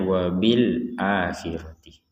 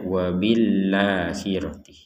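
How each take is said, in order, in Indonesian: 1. Huruf a dibaca terpisah setelah l. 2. Huruf l langsung menyambung ke a. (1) "ini cara bacanya" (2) "Jangan sampai nyerempet membacanya"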